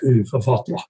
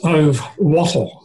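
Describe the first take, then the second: First: The name is said with Swedish pronunciation. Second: The name is said with English pronunciation. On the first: "the Swedish pronunciation is something like" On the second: "You might translate that name as"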